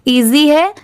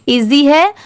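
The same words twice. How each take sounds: The two takes are said the same way.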